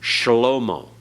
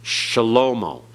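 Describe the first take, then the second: First: A short vowel is heard after the 'sh' sound. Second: The same.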